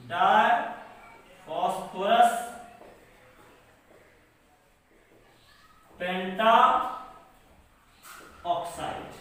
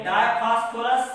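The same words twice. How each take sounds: First: Lower, word by word, long pauses; dictation. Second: Said in the usual way. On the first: Shown as a demonstration. Teacher dictating phosphorus oxide's name for writing, measured dictation. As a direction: dictate each part separately and low.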